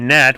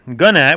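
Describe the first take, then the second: First: The initial G is silent; it starts with N. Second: The initial G is pronounced before the N. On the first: The speaker calls it right. "it's a silent G" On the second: The speaker calls it wrong. "which is a mispronunciation"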